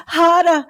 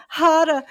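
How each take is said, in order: First: "harder" cried loud and high, falling; louder cry. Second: "harder" again, a bit less loud, falling. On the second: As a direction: ease off on the second "harder". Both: Retold or imitated. Repeated mock passion cry.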